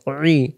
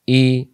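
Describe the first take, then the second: First: "রি" as pharyngeal ee, no r; squeezed ain i. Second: Clean open "ই"; "ই" without throat pressure; hamza i. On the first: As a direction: press inside the throat for "রি". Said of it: "গলার ভিতরে চাপাচাপি হবে". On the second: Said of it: "হামজা এবং আইন অক্ষরের পার্থক্য". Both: Shown as a demonstration.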